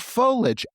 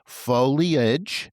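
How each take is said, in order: First: It is said with the Midwestern pronunciation. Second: It is said without the Midwestern pronunciation.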